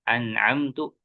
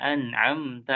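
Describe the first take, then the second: First: The word ends with a 'u' vowel. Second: The word ends with an 'a' vowel. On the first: The one I have favored. The speaker calls it wrong. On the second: The one you have favored. The speaker calls it right.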